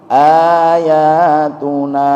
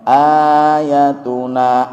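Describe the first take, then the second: First: The vowel after the y is drawn out long. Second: The vowel after the y is kept short. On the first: It refers to several verses. "ayat-ayat kami" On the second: It refers to a single verse. "ayat kami"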